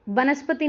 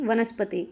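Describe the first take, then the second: First: वनस्पति as बनस्पति, opening on b; mistaken first consonant. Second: वनस्पति opening on v; correct first consonant. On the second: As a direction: say वनस्पति with v, pitch falling. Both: Shown as a demonstration. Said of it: "वनस्पति नहीं".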